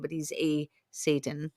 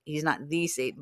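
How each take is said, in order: First: "a" stressed and said as "ay". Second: "the" stressed and said as "thee". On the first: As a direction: lean on "a" as "ay", just one of several. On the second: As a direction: lean on "the" as "thee", the one and only. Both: Real, not acted. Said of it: "he's not the Satan, but he's a Satan".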